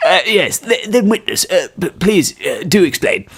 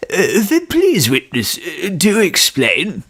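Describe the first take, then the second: First: Halting old judge, lightly voiced. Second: Put-on old man voice. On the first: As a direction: stammer like a doddering judge. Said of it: "This is the judge voice". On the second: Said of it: "get the old man voice down".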